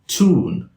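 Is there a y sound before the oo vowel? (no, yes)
no. The oo vowel follows with no y sound. "standard American English speaker would say"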